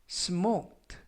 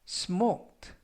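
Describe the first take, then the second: Both takes have the same delivery.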